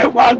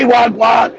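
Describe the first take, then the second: First: Said in the usual way. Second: "wagwan" drawn out, rising at the end; demonstrating "wagwan" with lengthened vowels; local pronunciation. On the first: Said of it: "why Joey never say". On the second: Shown as a demonstration. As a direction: stretch "wagwan" with a lift at the end. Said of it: "We say".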